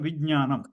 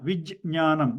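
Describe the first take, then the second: First: The word flows on without any break. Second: There is a short break after the j sound. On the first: "If I don't pause, then it will become" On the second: "I am pausing after J before the Nya"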